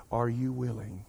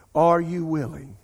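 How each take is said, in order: First: Said in the usual way. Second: "Are you willing" said slowly and louder, leaning on "Are"; slow, pressing repeat. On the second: Retold or imitated. Preacher voicing God's question again, slow and louder. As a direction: push the repeated "Are you willing" harder and slower, each word weighted. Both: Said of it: "And God said it again".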